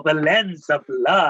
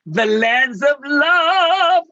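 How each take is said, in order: First: Slow, amused repeat of the title through a laugh. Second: Higher, slow and sung-out, like a show title; sung, stretch it out as if announcing a musical; sung, grand drawn-out title. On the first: Real, not acted. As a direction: chuckle it out as a joke. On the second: Acted. Savouring the phrase, musical title.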